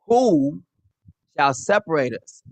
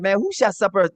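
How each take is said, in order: First: It is said as a firm statement. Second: It is said as a questioning remark.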